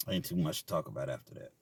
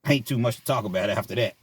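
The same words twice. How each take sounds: First: Much lower, much softer repeat; deadpan under-the-breath repeat; quiet aside. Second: Said in the usual way. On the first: Shown as a demonstration. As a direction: drop it to a low muttered echo.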